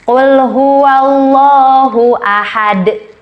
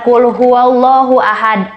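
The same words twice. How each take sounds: First: The final d ends with an echoing bounce. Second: The final d stops without an echoing bounce. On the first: The speaker calls it right. "Tapi harus ada qalqalahnya" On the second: The speaker calls it wrong. "jadi bukan"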